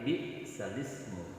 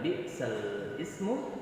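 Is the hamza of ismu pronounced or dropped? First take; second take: dropped; pronounced. First: The hamza is dropped and the words run together. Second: The hamza of ismu is pronounced separately. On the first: The speaker calls it right. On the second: The speaker calls it wrong.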